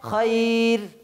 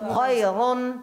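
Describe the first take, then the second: First: The r is light and the word stops. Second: The r is heavy and the ending continues. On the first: "যদি থেমে যায়" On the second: "মোটা অবস্থায়।"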